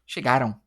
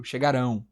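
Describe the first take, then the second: First: "Chegaram" stressed on the middle syllable "ga"; weight on "ga", unstressed ending in "Chegaram"; past-tense stress. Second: "chegarão" stressed on the final syllable; future-tense stress. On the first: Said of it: "Mas o chegaram aqui". ("Chegaram" com tônica no "ga") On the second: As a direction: land the weight on the "rão" of "chegarão". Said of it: "vai ficar no futuro". ("chegarão" com tônica no fim) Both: Shown as a demonstration.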